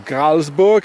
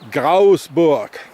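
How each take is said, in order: First: It is said with a clear L sound. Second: The L is dropped, Bernese style.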